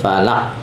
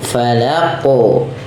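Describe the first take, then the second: First: The final q stops flat with no bounce. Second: The final q ends with a bouncing release. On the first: The speaker calls it wrong. "bukan hanya sekedar bi rabbil falaq" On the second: The speaker calls it right. "Tapi dia harus ada pantulannya"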